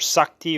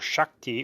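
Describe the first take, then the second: First: The word begins with a plain s sound. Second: The word begins with a sh sound.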